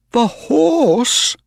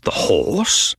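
First: High, incredulous question; flabbergasted exclamation; astonished cry. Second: Puzzled echo, somewhat high; wondering, incredulous question; milder astonishment. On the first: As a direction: cry out in disbelief, pitched high. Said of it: "cried Mister Ross". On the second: Narrator echoes the astonishment. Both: A narrator's reading.

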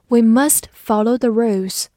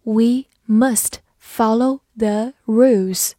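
First: Said in the usual way. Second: One word at a time, slowly; slow model reading with gaps between words. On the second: Shown as a demonstration. Teacher reads the rules example for learners, slow reading. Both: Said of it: "慢读一遍".

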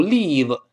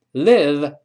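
First: "live" with a long "ee"; wrong example, stretched vowel in "live". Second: "Live" with a short, lax i; short-vowel "Live". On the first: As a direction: mispronounce "live" like "leave". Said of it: "不要读live". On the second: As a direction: model "Live" as in "give". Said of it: "live短音". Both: Shown as a demonstration.

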